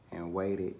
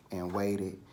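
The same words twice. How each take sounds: The two takes are said the same way.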